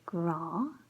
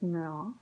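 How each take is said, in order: First: The word begins with a g sound. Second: The word begins with an n sound. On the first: "we have the word gra" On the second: "it changes the pronunciation to nra"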